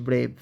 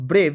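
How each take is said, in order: First: "ব্রেভ" drawn out as one syllable; slow pronunciation. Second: Said in the usual way. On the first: Shown as a demonstration. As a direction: say "ব্রেভ" slowly in a single stretched beat. ("ব্রেভ" আস্তে আস্তে, এক টানে উচ্চারণ) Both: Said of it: "আস্তে আস্তে উচ্চারণ করলে".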